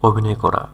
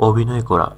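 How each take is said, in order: Both takes have the same delivery.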